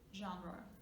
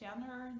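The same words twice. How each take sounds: First: It is pronounced the way the original foreign word sounds. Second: It is pronounced in an anglicized way. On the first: The speaker calls it right. "it's a foreign word, so we should say it just like it is" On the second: The speaker calls it wrong. "we tend to kind of say it's like genre"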